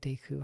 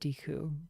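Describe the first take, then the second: First: It is said with a Japanese-style pronunciation. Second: It is said with an anglicized English pronunciation. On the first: The speaker calls it right. "but I guess it's probably Deku" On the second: The speaker calls it wrong. "So I always said Deku"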